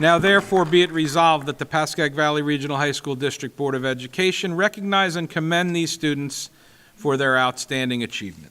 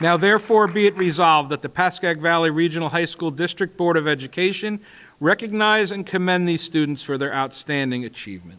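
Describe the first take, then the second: Both takes have the same delivery.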